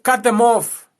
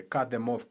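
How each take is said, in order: First: Louder and higher, a hard shout; loud command. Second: Said in the usual way. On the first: Shown as a demonstration. To family ties, now shouted. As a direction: bark the order out. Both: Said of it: "repeated command, second louder".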